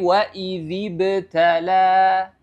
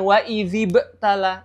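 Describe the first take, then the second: First: The b bounces and flows straight into the next sound. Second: The b stops abruptly with a catch before continuing. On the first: The speaker calls it right. "Tapi wa idzib tala ya" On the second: The speaker calls it wrong. "Jadi bukan wa idzib tala"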